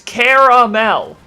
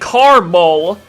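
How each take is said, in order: First: The middle vowel is kept, giving three syllables. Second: The middle vowel is dropped, giving two syllables. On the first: The speaker calls it right. "It's caramel" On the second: The speaker calls it wrong. "where's the second A"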